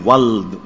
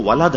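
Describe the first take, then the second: First: ولد as one syllable, "wald"; common mispronunciation. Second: ولد in two syllables, "wa-lad"; correct pronunciation. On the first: Cleric quoting how people commonly say ولد, as "wald". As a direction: run the l into the d in ولد, no second vowel. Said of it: "یہ ولد کہاں ہے بھائی؟". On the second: Cleric correcting people's word, ولد said as "walad". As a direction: open a short a after the l in ولد. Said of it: "یہ تو ولد ہے". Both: Shown as a demonstration.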